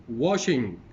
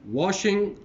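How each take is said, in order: First: "washing" loud with a falling tune; second of a pair, "washing" dropping to a close; word-list reading. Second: "washing" high and loud, tune left up; first of a pair, "washing" lifted and separate; word-list reading. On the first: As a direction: model "washing" clearly, pitch falling at the end. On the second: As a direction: model "washing" clearly with a raised, unfinished tune. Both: Shown as a demonstration. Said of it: "going to read these, the words".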